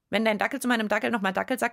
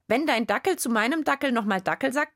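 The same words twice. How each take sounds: First: It is said at about double speed. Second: It is read aloud at a normal speed. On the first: "und doppeltes Tempo" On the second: "Vorlesen geht ganz gut"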